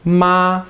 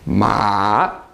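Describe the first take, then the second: First: The pitch stays high and level. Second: The pitch dips down then rises again. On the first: The word means mom. "Your voice just stays steady" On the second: The word means horse. "This is a tone that goes down and then back up again"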